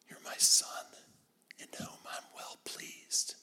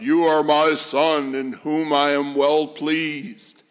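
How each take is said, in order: First: It is said in a soft whisper. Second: It is said in a loud, booming voice.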